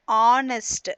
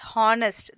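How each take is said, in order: First: The word starts with a vowel sound, silent h. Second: The word starts with an audible h sound. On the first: The speaker calls it right. "That is starting with the vowel sound ah" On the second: The speaker calls it wrong. "It is not pronounced as honest. That is wrong"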